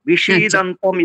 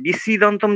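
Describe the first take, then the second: First: The s-sound is a retroflex sh. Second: The s-sound is a dental s. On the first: The speaker calls it right. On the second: The speaker calls it wrong.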